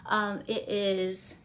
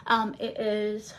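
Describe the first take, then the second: No difference in how they are said.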